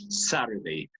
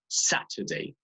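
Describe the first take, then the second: First: It is said with an American accent. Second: It is said with a British accent. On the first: "American English" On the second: "British English"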